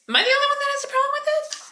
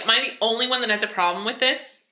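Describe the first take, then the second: First: Much higher, exasperated; exasperated bystander asking aloud, voice pitched high; incredulous high repeat. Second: Said in the usual way. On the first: Shown as a demonstration.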